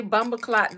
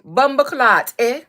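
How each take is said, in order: First: Said in the usual way. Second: Mock Toronto accent, punched out; Toronto accent attempt. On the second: Shown as a demonstration. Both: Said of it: "Somebody said Toronto accent".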